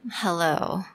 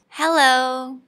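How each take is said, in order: First: It is said in a sad tone. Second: It is said in a happy tone. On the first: "What about sad?" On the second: "say hello in a happy tone"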